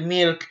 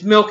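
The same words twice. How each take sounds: First: Milk said "meelk"; long "ee" vowel in milk; Spanish-style milk. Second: Said in the usual way. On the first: Shown as a demonstration. Reading the name as in Mexico, milk said "meelk". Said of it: "you'll pronounce it milk". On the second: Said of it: "it's milk in English".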